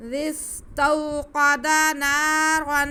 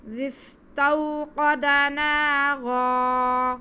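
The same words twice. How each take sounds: First: نارا read straight through as naran without a stop; continuous recitation without waqf; no pause. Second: نارا ending stretched long on the ر, stopping there; slow high chant, end drawn out; pause on naara. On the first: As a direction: chant slowly, flowing into the next words. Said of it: "اگر وقف نہیں کرتے تو". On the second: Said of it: "وقف کریں گے تو ایسے ہم را کو کھینچ کے پڑھیں گے". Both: Shown as a demonstration.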